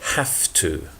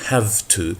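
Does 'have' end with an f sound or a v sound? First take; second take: f; v. First: Have ends with a voiceless f sound. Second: Have ends with a voiced v sound. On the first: The speaker calls it right. "but with f" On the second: The speaker calls it wrong. "this is not with the, not have to"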